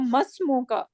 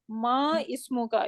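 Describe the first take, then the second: First: The vowel before the s is dropped, words linked. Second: The vowel before the s is pronounced separately. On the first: The speaker calls it right. "we are saying masmuka just for the fluency" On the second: The speaker calls it wrong. "we don't say Ma Ismuka"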